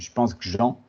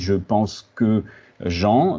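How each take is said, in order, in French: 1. Prononcé vite : 'que' perd sa voyelle. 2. Prononcé avec soin : la voyelle de 'que' est gardée.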